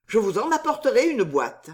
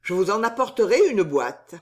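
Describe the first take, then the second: First: Higher-pitched, eager offer; exclaiming. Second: Solemn, measured promise; grave. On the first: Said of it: "s'écria-t-il". (offre empressée, exclamative) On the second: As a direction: promise it gravely, pitch near normal. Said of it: "continua gravement Bernice". (promesse faite gravement) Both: A narrator's reading.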